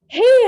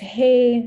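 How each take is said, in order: First: The greeting sounds upbeat and energetic. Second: The greeting sounds flat and bored. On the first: The speaker calls it right. "they sound energetic, they sound happy" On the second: The speaker calls it wrong. "It's boring"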